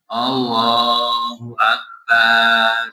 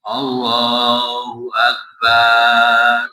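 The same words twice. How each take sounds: First: A vowel in Akbar is drawn out long. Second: The same.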